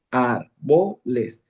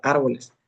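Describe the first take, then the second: First: Árboles very slowly as ár-bo-les; syllable by syllable. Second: Said in the usual way. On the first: Shown as a demonstration. Teacher showing where the accent goes, slowly syllabified. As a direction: split árboles into three long, separate syllables. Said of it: "vas separando la palabra por sílabas". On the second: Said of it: "antepenúltima sílaba vendría siendo ar".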